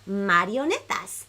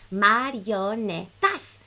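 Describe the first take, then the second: First: The word is said very fast. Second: The word is said at medium speed.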